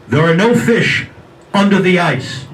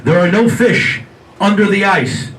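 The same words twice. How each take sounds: First: A louder, looming voice from nowhere; mysterious voice. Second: Slow, louder booming voice from nowhere; mysterious voice again. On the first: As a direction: boom it like an unseen voice. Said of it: "he hears this voice saying". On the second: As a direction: stretch it out like a voice from above. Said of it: "He hears the voice again". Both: Retold or imitated.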